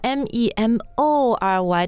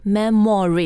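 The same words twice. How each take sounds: First: The middle syllable has a full 'o' vowel. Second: The middle syllable has a weak schwa vowel. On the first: The speaker calls it wrong. "但我们不读 memory" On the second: The speaker calls it right. "我们读、嗯Memory, 就把这个 MO 的音也变成了刷 sound"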